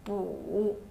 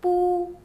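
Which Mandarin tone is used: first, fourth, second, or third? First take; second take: third; first. First: The pitch dips low, then rises. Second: The pitch stays high and level.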